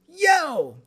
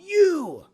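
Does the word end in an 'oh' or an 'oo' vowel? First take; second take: oh; oo. First: The word ends in an 'oh' vowel. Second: The word ends in an 'oo' vowel. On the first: "he goes, yo, yo, yo" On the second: "It's not you"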